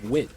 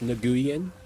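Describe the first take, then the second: First: The name is one syllable, sounding like win. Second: The name is spread over several syllables. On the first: The speaker calls it right. "it's pronounced Win" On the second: The speaker calls it wrong. "that's not pronounced Nguyen"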